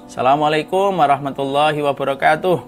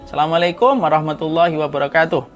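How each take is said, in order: No difference in how they are said.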